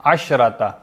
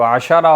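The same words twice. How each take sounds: First: अशरता with no vowel after the sheen; शीन साकिन. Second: अशारा with a vowel after the sheen; शीन पर ज़बर. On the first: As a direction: say अशरता as "ash-rata", sheen closed. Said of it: "मुअन्नस के लिए जब आता है तो शीन साकिन". (अशरता में शीन साकिन) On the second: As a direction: say अशारा, sheen opened by a short "a". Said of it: "मुज़क्कर के लिए जब आता है तो शीन पर ज़बर होती". (अशारा में शीन पर ज़बर) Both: Shown as a demonstration.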